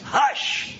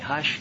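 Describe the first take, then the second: First: The word is said forcefully and sternly. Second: The word is said softly and gently. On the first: It is a firm command to be silent. "No, it's hush. There are stronger ways of saying that" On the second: It soothes a child to sleep. "a mother or father tucking a kid in at night and saying"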